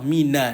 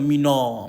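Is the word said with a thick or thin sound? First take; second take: thin; thick. First: The word is said with a thin, light sound. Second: The word is said with a thick, heavy sound. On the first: The speaker calls it right. "Jangan ini pun kita pakat tebal" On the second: The speaker calls it wrong. "bukan mina"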